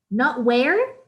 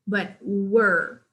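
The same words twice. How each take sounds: First: "where" as wair, the way not to say it; "where" said like wear; wrong pronunciation. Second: "were." as wur like fur; "were." rhyming with fur; correct pronunciation. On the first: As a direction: contrast "where" with "were", slightly louder. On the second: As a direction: model "were." with a short r-coloured vowel. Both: Shown as a demonstration. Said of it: "pronunciation of were".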